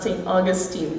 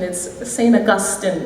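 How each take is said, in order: First: Augustine is stressed the American way. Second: Augustine is stressed the Trinidadian way.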